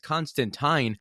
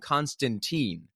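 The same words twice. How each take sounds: First: The last syllable rhymes with 'fine'. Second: The last syllable does not rhyme with 'fine'. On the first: The speaker calls it right. "it's Constantine and rhymes with fine" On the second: The speaker calls it wrong. "every live action version calls him Constantine"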